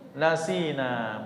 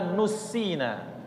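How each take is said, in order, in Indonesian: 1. Vokal pertamanya 'a' terbuka. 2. Vokal pertamanya 'u' membulat.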